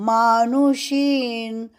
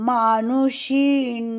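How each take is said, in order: The two takes are said the same way.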